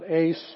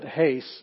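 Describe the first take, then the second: First: The word starts directly with a vowel. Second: The word starts with a breathy h sound. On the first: The speaker calls it wrong. "this is not ace" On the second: The speaker calls it right. "but hace"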